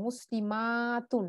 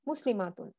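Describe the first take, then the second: First: মুসলিমাতুন with the মা held long before a short তুন; long drawn-out vowel. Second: Said in the usual way. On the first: Shown as a demonstration. Teacher showing learners the plural, মা in মুসলিমাতুন drawn out long. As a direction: stretch the মা in মুসলিমাতুন slowly. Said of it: "এক আলিফ টেনে পড়বো". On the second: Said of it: "এখানে কোনো আলিফ টেনে পড়ার মতো নাই".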